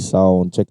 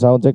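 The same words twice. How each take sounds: First: The voice sounds sharp, with full treble. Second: The voice sounds dull, with little treble. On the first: "Pag naka fully volume tayo sa treble" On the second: "sound check pag nakababa tayo"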